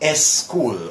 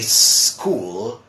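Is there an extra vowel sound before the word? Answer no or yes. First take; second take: yes; no. First: An extra vowel sound comes before the word. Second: The word starts directly with its consonants. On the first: The speaker calls it wrong. "they try to add a vowel sound before it" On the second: The speaker calls it right. "in English we say school"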